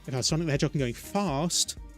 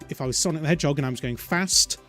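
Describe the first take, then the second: First: It has a southern English accent, long A. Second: It has a northern English accent, short A.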